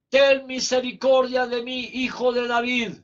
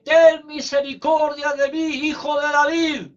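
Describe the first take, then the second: First: Mild calling out as the blind man; retold cry for mercy. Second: Higher, louder retold cry for mercy. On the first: The preacher voicing Bartimeo's first call to Jesus, mild cry. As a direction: plead out to Jesus, not yet full voice. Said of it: "Bartimeo gritando". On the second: Bartimeo calling louder to Jesus over the crowd, higher louder cry. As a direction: push the plea up over the crowd. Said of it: "Y gritaba más fuerte".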